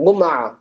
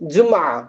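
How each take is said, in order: First: கும்ஆ starting with hard G as in "go"; Egyptian hard G. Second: ஜும்ஆ starting with an English J; standard Arabic J. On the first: Teacher showing Egyptian Friday, கும்ஆ with hard G. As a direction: say கும்ஆ with G replacing J. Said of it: "ஜும்ஆன்னு pronounce பண்ண மாட்டாங்க". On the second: Teacher giving standard Arabic for Friday, ஜும்ஆ with J. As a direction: say ஜும்ஆ opening on a J. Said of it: "அரபில என்ன சொல்லுவோம்". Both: Shown as a demonstration.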